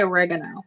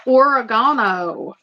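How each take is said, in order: First: Oregano as uh-REG-uh-no; own pronunciation. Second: Oregano as or-uh-GAH-no; other pronunciation. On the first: Telling viewers how she says it, oregano as uh-REG-uh-no. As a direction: stress the REG in oregano, with a short e. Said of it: "I say oregano". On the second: Asking viewers how everybody says it, oregano as or-uh-GAH-no. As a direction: stress the GAH in oregano, with an "ah" vowel. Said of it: "How does everybody say?". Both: Shown as a demonstration.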